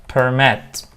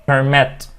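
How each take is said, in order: No difference in how they are said.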